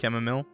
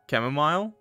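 First: The last syllable sounds like 'mill'. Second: The last syllable sounds like 'mile'. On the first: "I say mill" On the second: "It's like mile"

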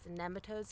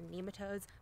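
First: The first syllable has a short 'e' sound. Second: The first syllable has a long 'ee' sound. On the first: The speaker calls it right. "So apparently it's nematodes" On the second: The speaker calls it wrong. "not nematodes"

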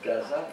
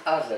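First: It begins with a hard G sound. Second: It begins with a guttural throat sound, no G. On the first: The speaker calls it wrong. "it's not Gaza" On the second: The speaker calls it right. "In Hebrew it's Gaza"

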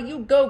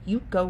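First: It is said in a Valley Girl voice. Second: It is said in her plain, sincere voice.

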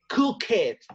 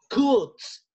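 First: The ending is an extra syllable like 'id'. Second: The ending is a short T sound. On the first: The speaker calls it wrong. "no le vamos a pronunciar como play it, cook it" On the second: The speaker calls it right. "the correct sound is T"

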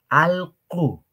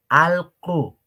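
The two takes are said the same way.

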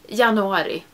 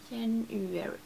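First: The word is pronounced the Swedish way. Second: The word is pronounced the English way. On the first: "it's the Swedish name for it" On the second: "it doesn't feel like I'm saying it right"

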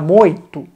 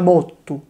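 First: The r becomes an i sound before t. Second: The r becomes a doubled t sound. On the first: This is how the word sounds in Palermo. "A Palermo diventa moito" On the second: This is how the word sounds in Catania. "ed a Catania diventa motto"

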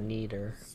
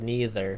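First: The middle consonant is said like a D. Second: The middle consonant is said without a D sound. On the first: "He said it with like a D" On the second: "Instead of neither"

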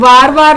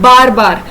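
First: Each word begins with a v sound. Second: Each word begins with a b sound.

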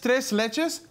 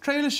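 First: The final s sounds are clearly pronounced. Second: The final s sounds are dropped, French-style. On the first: The speaker calls it right. "it's give tres it leches" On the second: The speaker calls it wrong. "not tre"

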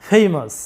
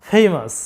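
Both takes have the same delivery.

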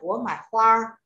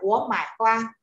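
First: A Northern accent, the last word with a curled tongue. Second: A Southern accent, the last word without a curled tongue.

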